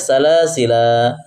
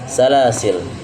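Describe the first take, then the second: First: The word ends with a final a vowel. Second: The word ends on the consonant l. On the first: "Tulisannya salasila, ada alifnya" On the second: "apabila waqaf maka dibaca salasil"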